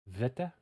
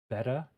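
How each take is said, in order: First: The word begins with a V sound. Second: The word begins with a B sound. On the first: This is how it is said today. "Now it's said like V" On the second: This is how it was said in ancient times. "So ancient pronunciation"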